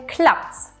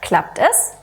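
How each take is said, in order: First: The pronoun is reduced to an s on the verb. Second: The pronoun is said as a full separate syllable. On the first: "sagen wir"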